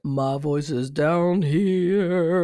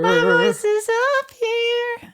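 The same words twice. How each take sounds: First: Slow low rumble. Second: Much higher, slow and a bit louder. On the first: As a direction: drop into the voice's low end. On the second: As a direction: squeak it way up high. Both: Shown as a demonstration.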